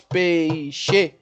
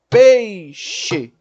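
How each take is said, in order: First: "peixe" errado, partido em pe-i-xe; três sílabas. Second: "peixe" certo, PEI junto e forte, depois xe; duas sílabas. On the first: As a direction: separe o E do I em "peixe". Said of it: "eu teria três sílabas". ("peixe" devagar como pe-i-xe) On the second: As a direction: ditongo numa batida só, pei-xe. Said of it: "eu tenho duas sílabas". ("peixe" devagar em pei-xe) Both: Shown as a demonstration.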